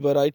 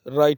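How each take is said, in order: First: The word starts with a w sound. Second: The word starts with an r sound. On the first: The speaker calls it wrong. "वराइट नहीं बोलते" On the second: The speaker calls it right. "बल्कि राइट बोलते हैं"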